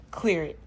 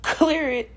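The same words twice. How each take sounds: First: Said in the usual way. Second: "Clear it" shouted, higher and louder; forceful command. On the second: Shown as a demonstration. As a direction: bark "Clear it" out to banish it. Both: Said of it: "I just want you to just".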